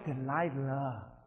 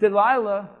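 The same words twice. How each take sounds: First: The name is said in a seductive way. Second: The name is said in a plain way. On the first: The speaker calls it right. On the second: The speaker calls it wrong.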